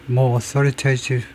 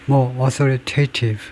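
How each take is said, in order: No difference in how they are said.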